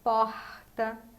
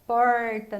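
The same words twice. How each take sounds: First: The R is made at the back of the tongue. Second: The R is made with the tongue curled back. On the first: "no Rio de Janeiro, é com esse R mais do fundo da língua" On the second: "no interior, a língua faz um movimento para trás"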